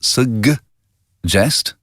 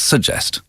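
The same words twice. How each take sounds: First: It is said the American way. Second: It is said the non-American way. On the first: The speaker calls it wrong. "you've just said suggest ... I think we say suggest in American English" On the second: The speaker calls it right. "It's suggest"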